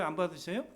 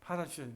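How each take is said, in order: First: 받아주셔요 asked with a rising question tune; rhetorical question. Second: 받아주셔요 answered with a falling tune, dropping soft; firm answer. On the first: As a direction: lift the end of 받아주셔요 as a question. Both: Shown as a demonstration. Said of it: "근데 그때도 주님이 받아주셔요?".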